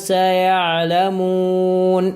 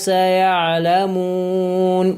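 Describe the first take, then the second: The two takes are said the same way.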